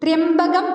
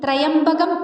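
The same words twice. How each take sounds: First: The opening syllable is said as 'trya'. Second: The opening syllables are said as 'traya'. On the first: It means the one with a third eye. The speaker calls it right. "മൂന്നാം കണ്ണ് എന്ന അർത്ഥം വരണമെങ്കിൽ ത്രയംബകം എന്ന് തന്നെ ഉച്ചരിക്കേണ്ടതാണ്" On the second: It names a bow. The speaker calls it wrong. "പലരും തെറ്റായി ത്രയംബകം എന്ന് ഉച്ചരിച്ച് കേൾക്കാറുണ്ട്"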